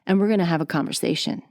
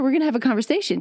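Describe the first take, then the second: First: The voice is dropped to a low, deep pitch. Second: The voice is raised to a high, excited pitch. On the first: The speaker is being really serious. "I'm going to go a little bit lower" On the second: The speaker is really excited. "I'm really excited and I'm up here"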